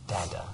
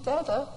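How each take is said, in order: First: Soft, hushed Dada as a treasured first word; whispered Dada. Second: Put-on high, babyish Dada; baby's first word. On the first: Retold or imitated. Father recalling hearing his child's first Dada, whispered. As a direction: breathe "Dada" softly with wonder. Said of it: "finally you hear". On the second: Father imitating his baby saying Dada, high and babyish. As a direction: squeak it like a tiny baby. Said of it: "Like he's saying".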